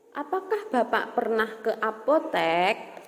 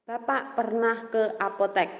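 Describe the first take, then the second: First: Rising question tune, voice lifting on "apotek"; curious interviewer asking, the tune climbing on "apotek"; question intonation. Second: Statement tune, falling to rest on "apotek"; calm statement, pitch settling down on "apotek"; statement intonation. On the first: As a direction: ask it as a real question, rising at the end. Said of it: "Nah, itu nadanya seperti itu". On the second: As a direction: say it as plain news, dropping at the end. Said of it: "Nah, itu beda kan? Nadanya beda". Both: Shown as a demonstration.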